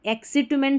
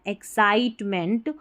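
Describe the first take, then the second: First: The second syllable has a short 'i' vowel. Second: The second syllable has an 'eye' vowel. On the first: The speaker calls it wrong. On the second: The speaker calls it right.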